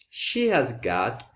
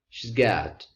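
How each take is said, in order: First: The word has is said as a full syllable. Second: The word has is reduced to a z sound.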